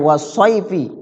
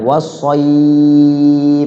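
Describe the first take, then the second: First: The 'ay' vowel is short and flows on. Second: The 'ay' vowel is drawn out long and soft. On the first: The reading continues without stopping. "Sebenarnya nggak panjang" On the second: The reader stops at this word. "karena diwakafkan di situ jadi pan panjang"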